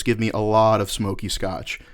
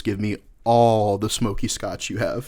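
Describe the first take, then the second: First: "a lot" drawn out as the misheard amount; slow, deliberate line leaning on "a lot"; misheard order. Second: "all" stretched long for emphasis; slow, deliberate correction leaning hard on "all"; stress on "all". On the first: Bartender quotes what the customer wrongly heard, stress on "a lot". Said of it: "what I'm afraid you heard me say". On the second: Customer corrects the bartender on his order, stress on "all". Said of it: "What I actually said was". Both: Retold or imitated.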